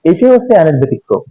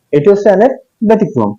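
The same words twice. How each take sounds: First: Said in the usual way. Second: অ্যানের lifted higher and leaned on; stress on অ্যানের. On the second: Shown as a demonstration. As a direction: repeat it, hitting অ্যানের. (অ্যানের শব্দে জোর দিয়ে, উঁচু স্বরে)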